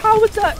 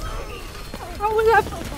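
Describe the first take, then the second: First: Sharp, loud outraged question; loud protest. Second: Drawn out slowly, each word stretched; slow disbelief. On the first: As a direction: bark the question in disbelief. Protests the death. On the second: Repeats the protest, slowly. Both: Real, not acted.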